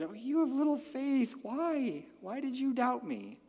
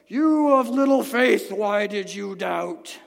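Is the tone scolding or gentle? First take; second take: gentle; scolding. First: It is said tenderly, like a comforting mother. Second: It is said in a stern, scolding tone.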